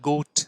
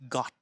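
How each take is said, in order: First: The vowel is a long 'oh' sound. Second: The vowel is a short open 'o' sound. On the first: The speaker calls it wrong. "আমরা গোট বলছি না" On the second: The speaker calls it right. "অ অ এর উচ্চারণ"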